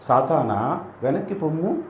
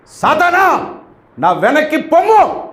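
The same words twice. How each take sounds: First: Soft, timid telling-off; a weak quiet rebuke; meek soft rebuke. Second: A forceful rebuke from Jesus; commanding rebuke. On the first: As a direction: say it gently as if afraid. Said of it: "పోనీ నేను చెప్తాను, మీరు చూడండి". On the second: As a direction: order Satan away with full authority. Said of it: "ఇలాగే అని ఉంటాడు". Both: Shown as a demonstration.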